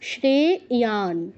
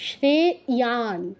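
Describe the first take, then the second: No difference in how they are said.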